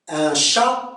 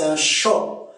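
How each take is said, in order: First: The vowel is a French open a. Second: The vowel is a Canadian back o-like sound.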